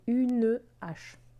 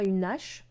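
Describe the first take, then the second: First: Une and hache are kept apart, unlinked. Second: The n sound runs straight into hache. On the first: The speaker calls it right. "on dit" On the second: The speaker calls it wrong. "On ne dit pas"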